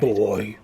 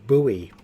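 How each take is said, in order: First: It is said with one syllable, like boy. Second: It is said with two syllables, like boo-ee. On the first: This is how people say it here. "we pronounce it boy here" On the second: This is how Americans say it. "I thought Americans pronounced it buoy"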